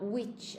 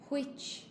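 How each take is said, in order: First: It starts with a plain 'w' sound. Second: It starts with a breathy 'hw' sound. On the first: The speaker calls it wrong. "not which" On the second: The speaker calls it right. "That's why I pronounce the W H. I say which"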